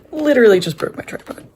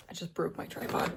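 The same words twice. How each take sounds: First: Raised voice, pitched up at the start; loud, falling cry of frustration; loud exasperation. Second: Quiet, deflated disbelief; stunned mutter. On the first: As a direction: announce the mishap in disbelief. Tripod mishap, repeated in exasperation. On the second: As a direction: report the mishap under your breath. Tripod mishap, first stunned report. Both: Real, not acted.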